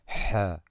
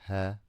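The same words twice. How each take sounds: First: The h is forced hard from the throat. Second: The h is a soft, plain breath. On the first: The speaker calls it right. "from your throat like this. Ha, with power" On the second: The speaker calls it wrong. "Not ha"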